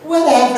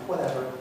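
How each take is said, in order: First: The voice is exaggerated and high-pitched. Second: The voice is only slightly changed.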